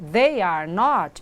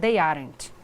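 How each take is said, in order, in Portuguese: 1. Três palavras separadas, levando mais tempo para dizer. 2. Duas palavras contraídas, ditas mais rapidamente.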